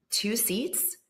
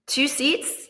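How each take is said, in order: First: Said in the usual way. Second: Higher, louder disbelieving question; incredulous repeat. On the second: Real, not acted. To the host, stressing how few seats decide power. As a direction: sell how shocking it is.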